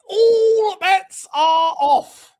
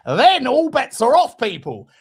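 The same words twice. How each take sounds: First: High, loud, very slow "All bets are off"; drawn-out proclamation. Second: Excited declaration. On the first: Repeats it drawn out. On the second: Hyping the fourth drink. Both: Real, not acted.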